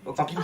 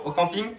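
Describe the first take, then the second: First: Said in the usual way. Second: Speaking up. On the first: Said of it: "Parle bien fort". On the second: Real, not acted. Volunteer repeats for hypnotist's only mic, speaking up. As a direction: speak up slightly for the microphone. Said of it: "Parle bien fort parce que".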